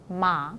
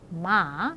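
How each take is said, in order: First: The pitch simply falls and stays low at the end. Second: The pitch dips and then rises slightly at the end. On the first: "그냥 내리는 사람이 있어요" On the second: "물음표 모양으로 갔다가 살짝 올려서"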